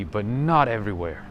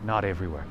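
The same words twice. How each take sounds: First: Not everywhere with not stressed louder. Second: Said in the usual way. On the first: Real, not acted. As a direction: lean on not before everywhere.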